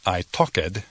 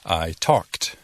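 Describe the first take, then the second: First: The ending is said as a separate syllable. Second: The ending is a single sound with no syllable. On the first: The speaker calls it wrong. "No I talked" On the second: The speaker calls it right. "La terminación suena como T"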